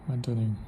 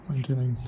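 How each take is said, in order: No difference in how they are said.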